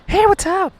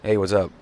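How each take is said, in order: First: It sounds eager and approval-seeking. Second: It sounds relaxed and indifferent. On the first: The speaker is seeking validation. The speaker calls it wrong. "Like you're trying to get a report" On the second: The speaker is not seeking approval. The speaker calls it right. "Like I don't give a fuck"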